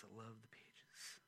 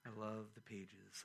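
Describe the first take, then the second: First: Soft whispered repeat of I love the pages; a fond whisper to the book. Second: Said in the usual way. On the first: Shown as a demonstration. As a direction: whisper it tenderly to the Bible. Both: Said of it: "repeats it in a whisper".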